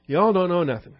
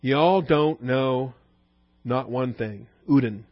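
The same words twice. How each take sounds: First: High, sneering know-it-all voice; haughty high priest. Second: Slow, drawn-out scornful put-down; prideful superiority. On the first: Retold or imitated. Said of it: "he is the high priest after all". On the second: Shown as a demonstration. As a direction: stretch it out like a haughty know-it-all. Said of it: "Communicates strongly the prideful superiority".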